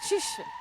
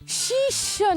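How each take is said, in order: First: The first syllable's vowel is kept short. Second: The first syllable's vowel is drawn out long. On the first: The speaker calls it right. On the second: The speaker calls it wrong.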